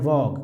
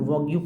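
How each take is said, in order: First: The word ends cleanly after the 'g' sound. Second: The word ends with an extra 'yoo' syllable. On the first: The speaker calls it right. "उच्चारण पढ़ना है वॉग" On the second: The speaker calls it wrong. "कुछ लोग वॉग्यू पढ़ देते हैं, गलत उच्चारण है"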